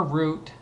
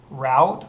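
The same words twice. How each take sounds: First: "route" with a long OO vowel; route like root. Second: "route" with the OW vowel of "out"; route rhyming with out. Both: Shown as a demonstration. Shows both pronunciations of route.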